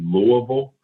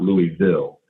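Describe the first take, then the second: First: The city name is said the local way. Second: The city name is said the outsider way. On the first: This is how the residents say their city's name. The speaker calls it right. "it's technically Louisville" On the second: This is how people from elsewhere tend to say it. The speaker calls it wrong. "and not Louisville"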